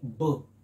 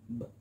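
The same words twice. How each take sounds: First: The consonant sound is said loudly. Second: The consonant sound is said quietly. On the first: The speaker calls it wrong. "It doesn't say B" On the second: The speaker calls it right. "B again, very quiet. It says B"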